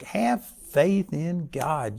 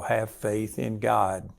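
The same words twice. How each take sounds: First: It is said with strong emphasis. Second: It is said plainly and flatly.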